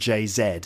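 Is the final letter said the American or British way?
British. The final letter is said the British way. The speaker calls it wrong. "We don't call him [name]"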